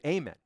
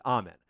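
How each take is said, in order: First: "amen" said as AY-men, long A like say; ay-men pronunciation. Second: "amen" said as AH-men, open A like father; ah-men pronunciation. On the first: Preacher mocking the wrong prayer sign-off, "amen" as AY-men. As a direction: open it with AY, ay-men. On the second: Preacher mocking critics' correction of the sign-off, "amen" as AH-men. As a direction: start it with AH, ah-men. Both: Shown as a demonstration. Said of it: "You should have said amen".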